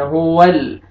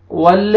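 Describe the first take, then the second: First: हुवल closed on a steady, unbounced L; still laam. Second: वल with the L released into an extra vowel, "wal-la"; bounced laam. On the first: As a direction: hold the last L of हुवल without adding a vowel. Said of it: "लाम को आपने नहीं हिलाना". (हुवल में लाम बिना हिलाए) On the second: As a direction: wrongly bounce the L at the end of वल. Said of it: "ऐसे नहीं पढ़ना". (वल में लाम हिलाकर) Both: Shown as a demonstration.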